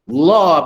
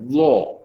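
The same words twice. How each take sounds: First: The l sound is light and thin. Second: The l sound is heavy and thick. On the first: The speaker calls it wrong. "La pun tak boleh eh" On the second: The speaker calls it right. "Itulah bacaan taghliz"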